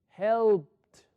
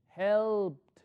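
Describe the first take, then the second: The two takes are said the same way.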